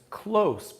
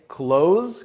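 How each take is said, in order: First: The word ends with a hissing S sound. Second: The word ends with a buzzing Z sound. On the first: Near. "som de S no final" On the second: To shut. "close com Z"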